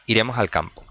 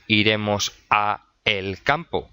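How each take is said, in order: First: Said in the usual way. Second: "a el" said as two separate words, "a... el"; uncontracted form. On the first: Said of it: "al es la contracción de a más el". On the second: Shown as a demonstration. Teacher showing what we don't say, "a el" pulled apart. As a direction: split "a" from "el" before "campo". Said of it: "No solemos decir iremos a el campo".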